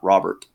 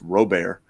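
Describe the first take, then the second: First: It is said the North Louisiana way. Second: It is said the South Louisiana way.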